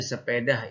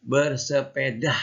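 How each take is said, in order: First: "sepeda" said as "sepedah" with an h breathed on the end; Sundanese-style form. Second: "Bersepeda" said slowly and clearly, no H sound at the end; correct Indonesian word. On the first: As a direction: show the common "sepedah" with a final h. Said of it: "itu dialek Sunda". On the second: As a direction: model "Bersepeda" carefully, ending on a clean a. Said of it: "Ingat ya, bukan pakai H". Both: Shown as a demonstration.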